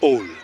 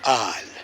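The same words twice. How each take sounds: First: The word is said with a standard English vowel. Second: The word is said with a Bhojpuri-accented vowel. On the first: "he will not tell all" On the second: "he will be telling all"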